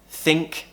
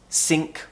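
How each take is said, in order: First: The word begins with a th sound. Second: The word begins with an s sound. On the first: The speaker calls it right. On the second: The speaker calls it wrong.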